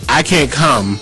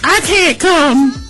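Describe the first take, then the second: First: It is said in the speaker's normal voice. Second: It is said in a changed, put-on voice.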